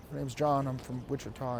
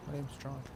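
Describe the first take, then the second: First: Quiet mumbled reply. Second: Barely audible mumble; soft mumbled name; too quiet. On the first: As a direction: still too soft. Student repeats, still mumbling. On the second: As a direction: mumble your name so it can't be heard. Student mumbling name in lobby. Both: Retold or imitated.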